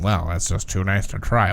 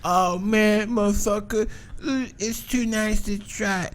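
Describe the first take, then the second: First: Lightly voiced square, lower pitch. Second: High, soft druggie voice, slowing at the end; tweaker impression. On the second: Mimicking tweakers giving up on the nice house, high soft voice. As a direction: put on a hushed, high-pitched tweaker. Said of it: "obviously they're like".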